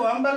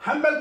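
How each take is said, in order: First: हम्बल said "ambal", H dropped; silent H. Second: Said in the usual way. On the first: Shown as a demonstration. Teacher recaps old pronunciation, हम्बल without the H. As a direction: begin हम्बल on its vowel with no H. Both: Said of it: "हम्बल को हम्बल बोलते थे".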